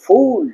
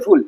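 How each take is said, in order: First: ফুল stretched slowly to 'foool'; ফুল drawn out, like English fool; long 'oo' as in fool. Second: ফুল with a short, quick vowel; ফুল said short, like English full; short 'u' as in full. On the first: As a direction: hold the vowel of ফুল long. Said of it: "but F double ও L". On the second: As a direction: keep the 'u' of ফুল brief. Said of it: "F ইউ L L ফুল". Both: Shown as a demonstration.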